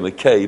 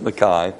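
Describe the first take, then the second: First: The last syllable rhymes with 'day'. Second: The last syllable sounds like 'eye', Scots style.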